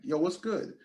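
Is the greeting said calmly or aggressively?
calmly. The greeting is said in a calm, relaxed tone. It is a friendly greeting. The speaker calls it right. "Very calm"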